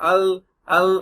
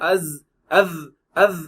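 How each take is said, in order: First: The consonant sounds like a plain L. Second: The consonant sounds like a plain S. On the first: "அல் அல் அப்படின்னு சொல்லுவாங்க... அதெல்லாம் தப்பு" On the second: "அஸ் அஸ் அஸ் அப்படிம்பாங்க. அதெல்லாம் தப்பு"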